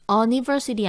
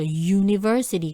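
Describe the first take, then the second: First: It begins with a plain 'oo' vowel sound. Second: It begins with a 'yoo' sound. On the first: The speaker calls it wrong. "아니죠" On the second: The speaker calls it right. "U가 U 소리 날 때는 앞에 어를 써야 됩니다"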